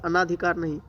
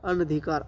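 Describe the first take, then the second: First: अनाधिकार with a long आ after न; अनाधिकार, the common wrong way with a long आ; wrong pronunciation. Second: अनधिकार with a short अ after न, no long आ; अनधिकार, the right way, short न; correct pronunciation. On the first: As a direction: stretch the न in अनाधिकार into नाआ. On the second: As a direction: say अनधिकार crisply, as अन-धि-कार. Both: Shown as a demonstration.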